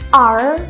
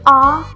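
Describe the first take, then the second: First: The letter is said in a non-British style. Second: The letter is said in a British style. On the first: "R yang condong" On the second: "condong ke British style"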